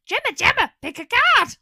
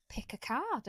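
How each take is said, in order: First: Loud, high call across the shop. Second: Said in the usual way. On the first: Acted. Calling Gemma over from the mushroom tea stand, loud and high. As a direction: shout for her friend to come pick a card.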